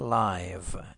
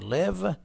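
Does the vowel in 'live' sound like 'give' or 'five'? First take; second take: five; give. First: The vowel is a diphthong, as in 'five'. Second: The vowel is short, as in 'give'. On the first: The word is used as an adjective. "اگر صفت باشه میشه live" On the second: The word is used as a verb. "اگه فعل باشه میشه live"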